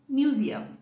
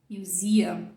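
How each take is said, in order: First: The stress is not on the second syllable. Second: The stress is on the second syllable. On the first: The speaker calls it wrong. "e não museum" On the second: The speaker calls it right. "você vai dizer museum"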